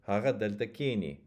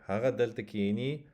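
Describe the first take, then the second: First: Haga delta kini, stressing the first syllable of kini; KI-ni with a falling finish; accent on the front. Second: Haga delta kini, stressing the last syllable of kini; ki-NI with a rising finish; accent on the end. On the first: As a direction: lean on ki in kini. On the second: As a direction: lean on ni in kini. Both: Shown as a demonstration. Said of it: "completely different meaning".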